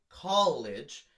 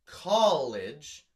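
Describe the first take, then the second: First: College stressed on "col", rising at the end; stress on first syllable. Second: College with the weight on "col"; stress on first syllable. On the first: Teacher repeating college to show its stress. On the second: Teacher showing where college takes its stress. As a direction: lean hard on "col" in college. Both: Shown as a demonstration. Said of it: "the emphasis is on call".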